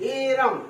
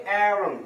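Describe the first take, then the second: First: এ রাম as two long words, e raam; exclamation-like pronunciation. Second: অ্যারাম opening on an open ae, short second syllable; correct pronunciation. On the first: Teacher likening it to "e ram", exclamation-like pronunciation. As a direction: stretch এ রাম like the Bengali exclamation. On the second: Teacher showing how it is pronounced, correct pronunciation. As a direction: say অ্যারাম as AE-rum, one word. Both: Shown as a demonstration. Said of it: "এটা উচ্চারণ হবে অ্যারাম".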